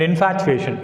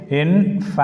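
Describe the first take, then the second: First: Said in the usual way. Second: "infatuation" split as in, fat, u, a, tion; syllable by syllable. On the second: Shown as a demonstration. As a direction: give the "a" in "infatuation" its own beat. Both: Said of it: "The letter A is a separate syllable".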